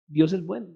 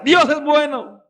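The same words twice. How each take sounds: First: "Dios es bueno" repeated lower and softer; soft echo. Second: Proclaimed. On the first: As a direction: drop to a hushed "Dios es bueno". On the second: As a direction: call out "Dios es bueno" to the congregation. Preacher proclaims, then repeats softly. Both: Real, not acted.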